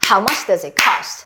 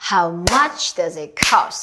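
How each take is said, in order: First: It is said fast. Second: It is said at a normal pace.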